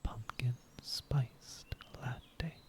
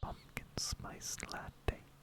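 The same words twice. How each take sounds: First: It is said a little louder. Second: It is whispered.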